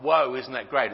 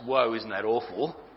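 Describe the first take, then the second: First: It sounds delighted and impressed. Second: It sounds dismayed and grieved.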